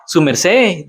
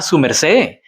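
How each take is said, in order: First: Put-on Su merced in Boyacá Colombian Spanish, falling on merced; Boyacá way of speaking. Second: Put-on su merced in Boyacá Colombian Spanish, rising on su; Boyacá way of speaking. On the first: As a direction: say Su merced like a Boyacá local, landing on merced. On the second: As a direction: say su merced the way Boyacá locals do, lifting su. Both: Shown as a demonstration. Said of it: "That's how they talk".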